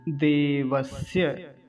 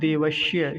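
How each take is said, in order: First: The middle consonant is a dental 's' sound. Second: The middle consonant is a palatal 'sh' sound. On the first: The speaker calls it right. "दंत्य सकार, दांतों से वायु बाहर आता है" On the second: The speaker calls it wrong. "कुछ लोग क्या कहते हैं, देवश्य, श्य, ऐसा नहीं कहेंगे।"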